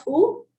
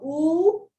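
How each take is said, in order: First: "U" as a short oo, like in book; short oo sound. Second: "oo" held long with a rising end; long oo sound. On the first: Teacher turning to the first sound, "U" cut short. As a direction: keep "U" brief, a quick oo. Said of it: "coming to the short U". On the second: Teacher turning to the second sound, "oo" drawn out. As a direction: stretch "oo" out, like in moon. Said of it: "Coming to the long oo". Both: Shown as a demonstration.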